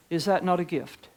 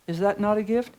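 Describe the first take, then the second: No difference in how they are said.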